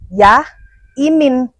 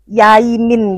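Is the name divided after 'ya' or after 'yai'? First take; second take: after ya; after yai. First: The name is split after 'ya', then 'imin'. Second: The name is split after 'yai', then 'min'. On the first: The speaker calls it wrong. "bukan ya Imin" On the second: The speaker calls it right. "tapi Yaimin gitu loh"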